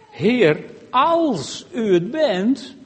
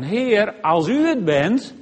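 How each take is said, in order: First: It is said with a doubting, challenging emphasis. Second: It is said with a trusting, hopeful emphasis. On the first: I don't really believe it; prove it. "dan kun je op twee manieren de klemtoon erin leggen. Je kunt zeggen" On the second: I believe it is you but need a little confirmation. "Je kunt de klemtoon ook zo leggen"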